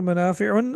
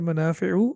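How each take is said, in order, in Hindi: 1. शब्द के अंत में एक अतिरिक्त 'n' की आवाज़ जुड़ी है। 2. शब्द छोटे 'u' स्वर पर खत्म होता है। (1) "मनाफिउन ... नहीं है" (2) "बल्कि मनाफिउ"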